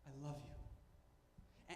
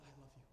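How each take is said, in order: First: Very slow, breathy whisper; whispered I love you. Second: Low and soft, drawn in close; soft God's voice. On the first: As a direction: let it barely leave your lips, slowly. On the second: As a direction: say it gently, like a father calming a child. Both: Retold or imitated. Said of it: "he always begins by saying".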